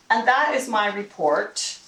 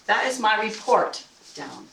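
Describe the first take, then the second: First: Ending on a rise like a question; mock uncertain rising finish; up talk. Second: Falling finish on "report"; landed sentence. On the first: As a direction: let "report" float up at the end. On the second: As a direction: bring "report" down firmly. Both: Shown as a demonstration.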